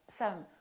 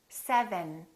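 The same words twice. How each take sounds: First: The consonants are reduced and run together. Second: Every consonant is clearly and fully pronounced. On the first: The speaker calls it wrong. "don't get lazy and say" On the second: The speaker calls it right. "my lower lip is touching my upper teeth, V, and then my tongue is touching right behind my upper teeth"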